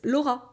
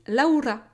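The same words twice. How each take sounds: First: The name is said with a French R. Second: The name is said with a Spanish R. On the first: "but it's Laura" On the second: "when Spanish people are saying my name"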